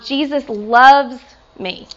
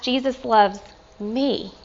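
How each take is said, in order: First: The stress falls on the word loves. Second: The stress falls on the word me. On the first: The relationship is one of amazing love. "the love that he has" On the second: The love reaches someone undeserving. "And then last"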